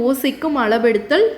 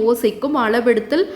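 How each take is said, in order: No difference in how they are said.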